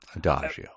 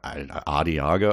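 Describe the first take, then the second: First: The middle is said as 'dah-jo'. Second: The middle is said as 'dee-ah-go'. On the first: The speaker calls it right. "that pronunciation of Adagio" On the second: The speaker calls it wrong. "I think you pronounce Asiago cheese"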